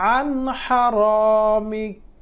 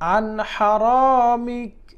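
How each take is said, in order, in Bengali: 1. বাক্যাংশটি একটি হসন্ত ব্যঞ্জনে শেষ হয়। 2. বাক্যাংশটি একটি হসন্ত ব্যঞ্জনে শেষ হয়।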